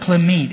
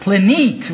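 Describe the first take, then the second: First: The middle consonant is an m sound. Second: The middle consonant is an n sound. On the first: The speaker calls it wrong. "it wasn't plimit" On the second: The speaker calls it right. "It was plinit with an N"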